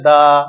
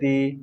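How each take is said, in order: First: The word ends in a short 'uh' vowel. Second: The word ends in an 'ee' vowel. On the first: The next word starts with a consonant sound. "যখন কোনো word consonant দিয়ে শুরু হবে ... দা উচ্চারণ করব" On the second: The next word starts with a vowel sound. "ভাওয়েল sound, ওই জন্য কি হলো উচ্চারণটা দি করলাম"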